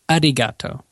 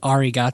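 First: The r sounds halfway between r and l. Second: The r is a plain English r sound. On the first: The speaker calls it right. "they say arigato. It's like this weird like type of sound" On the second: The speaker calls it wrong. "they don't say arigato"

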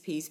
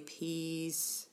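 First: The word is said quickly in repetition. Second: The word is said very slowly and drawn out. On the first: "you just say that word over and over and over again" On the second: "or you might say it really slowly"

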